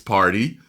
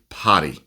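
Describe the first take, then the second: First: It is said with the r sound pronounced. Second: It is said with the r sound dropped. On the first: "he knows it's party" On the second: "his accent makes him say potty"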